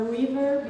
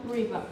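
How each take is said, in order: First: Said in the usual way. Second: "river" ending in an open "ah"; Australian r-dropping. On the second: Shown as a demonstration. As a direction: drop the r of "river" for an "ah" sound. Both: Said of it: "at the end have the A sound".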